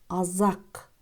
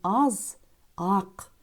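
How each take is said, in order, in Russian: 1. Слово произносится плавно, без паузы. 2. Слово произносится с паузой внутри. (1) "Слитно произносим азак" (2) "Не аз, ак"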